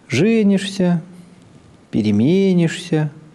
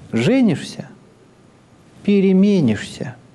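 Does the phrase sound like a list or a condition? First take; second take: list; condition. First: Both words are said with even listing intonation. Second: A pause and a rise-then-fall mark a condition. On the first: Two parallel actions are simply listed together. "с интонацией перечисления" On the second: Once you marry, you will change. "с интонацией обусловленности. Появляется пауза, и повышение, понижение тона располагаются иначе"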